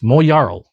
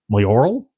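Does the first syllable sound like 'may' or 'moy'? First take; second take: moy; may. First: The first syllable sounds like 'moy'. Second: The first syllable sounds like 'may'. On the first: The speaker calls it right. "No, it's Moyaral" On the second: The speaker calls it wrong. "I've been probably saying that horribly wrong"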